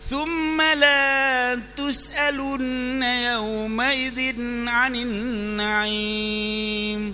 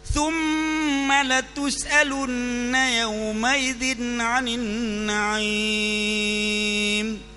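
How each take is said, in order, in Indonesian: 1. Vokal setelah L itu panjang. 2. Vokal setelah L itu pendek. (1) "Tapi kita ubah" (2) "Kata pasti, latus'alunna, lam ta'kid"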